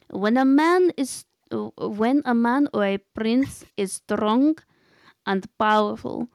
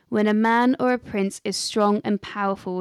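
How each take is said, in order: First: It is said in a put-on character voice. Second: It is said in the speaker's normal voice.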